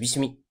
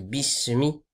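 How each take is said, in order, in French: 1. Le son s est faible, à peine audible. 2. Le son s est net, avec un souffle audible. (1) "Il y en a, ils disent bismi" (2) "On doit bien l'entendre. ... un petit vent qui passe"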